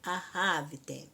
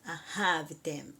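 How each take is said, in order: First: The first consonant is a soft breathy puff. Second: The same.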